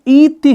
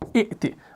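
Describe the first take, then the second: First: The first vowel is long, with no glottal stop. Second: A glottal stop follows the first short vowel. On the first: This is the form as it is written now. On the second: This is the original underlying form.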